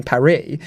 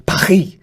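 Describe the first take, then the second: First: "Paris" said as pa-REE with an English r and silent s; "Paris" with silent s, no French r; French name, English sounds. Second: "Paris" as pa-REE with a throaty French r; "Paris" said fully French, silent s; full French pronunciation. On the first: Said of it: "English people are capable of saying". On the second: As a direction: rasp the r of "Paris" at the back of the throat. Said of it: "can't do that sound". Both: Shown as a demonstration.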